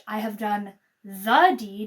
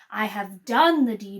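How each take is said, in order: First: The stress is on "deed". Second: The stress is on "done".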